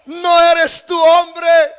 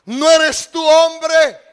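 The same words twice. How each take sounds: First: Slow, loud challenge on hombre; David rebuking Abner, louder the second time; louder reproach. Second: Slow reproach. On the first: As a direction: throw hombre at him as a rebuke. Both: Acted. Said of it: "Y le dijo a David".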